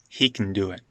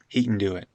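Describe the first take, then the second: First: Can shrinks to a glottal stop and n. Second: Can shrinks to a glottal stop and n.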